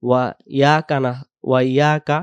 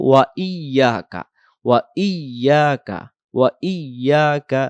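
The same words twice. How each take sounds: First: "ওয়া ইয়াকা" as quick wa yaka; wrong short form. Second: "ওয়া ইয়াকা" slower, as wa iy-yaa-ka; correct doubled Y. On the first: Teacher showing what to avoid, "ওয়া ইয়াকা" as short wa yaka. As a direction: drop the doubled y in "ওয়া ইয়াকা". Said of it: "এমন যেন না হয়". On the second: Teacher giving the right form, "ওয়া ইয়াকা" with held doubled y. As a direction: hold the ই-ইয়া in "ওয়া ইয়াকা". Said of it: "উচ্চারণ হবে". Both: Shown as a demonstration.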